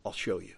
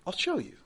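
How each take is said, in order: First: I'll show you dropped much lower and softer; a hushed, deep promise; low, quiet take. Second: Said in the usual way. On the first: Acted. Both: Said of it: "And he's like".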